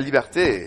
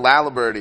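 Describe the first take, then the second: First: The name is said with French pronunciation. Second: The name is said with English pronunciation. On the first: The speaker calls it right. "It's beautiful" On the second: The speaker calls it wrong. "that gets turned into Laliberty"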